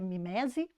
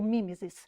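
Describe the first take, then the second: First: The word ends with an 'e' vowel sound. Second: The word ends with an 'is' sound. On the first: "Existem duas formas de pronúncia" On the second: "Existem duas formas de pronúncia"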